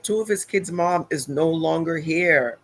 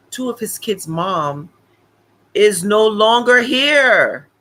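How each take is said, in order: First: Said in the usual way. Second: Slow, louder on "is no longer here"; dramatic emphasis. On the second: Retold or imitated. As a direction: drag out "is no longer here" slowly and loud, rising. Dramatic repeat of lawyer's point.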